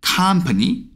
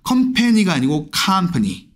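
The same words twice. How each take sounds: First: Company with a flat first vowel, KAHM-puh-nee; English company. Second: 컴퍼니 Korean-style against English company; Konglish then English company; wrong then right company. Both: Shown as a demonstration.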